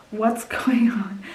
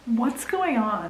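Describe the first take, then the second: First: The same question, whispered slowly. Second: Said in the usual way. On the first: Shown as a demonstration. Reader repeating her puzzled question, now whispering. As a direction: breathe it out like a secret.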